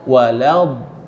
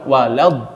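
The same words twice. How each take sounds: First: The final consonant is drawn out and prolonged. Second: The final consonant is short and clipped. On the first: The speaker calls it right. "Ini istitolah, memanjang" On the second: The speaker calls it wrong. "Bukan walad"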